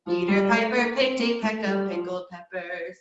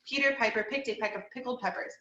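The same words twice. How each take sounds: First: It is said at a lower, deeper pitch. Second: It is said at a higher speaking pitch. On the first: "and then going down" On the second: "saying it more in like a speaking tone"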